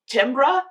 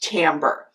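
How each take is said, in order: First: The word is read the way it is spelled. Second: The word is said unlike its spelling. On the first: The speaker calls it wrong. "It is spelled like timbra" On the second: The speaker calls it right. "but it's pronounced timbre"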